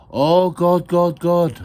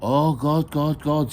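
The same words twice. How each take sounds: First: High, very loud mock-prayer chant; leading prayer chant. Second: Raised chant with a smile; smiling prayer echo. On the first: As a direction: lead the chant at full volume. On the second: Acted. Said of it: "said the ladies with a smile".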